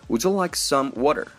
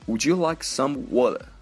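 First: The t in 'water' is clearly pronounced. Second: The t in 'water' is dropped.

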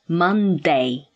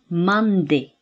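First: The last syllable is pronounced like 'day'. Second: The last syllable ends in a short 'i' sound. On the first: The speaker calls it wrong. "but not Monday" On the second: The speaker calls it right. "It should be Monday"

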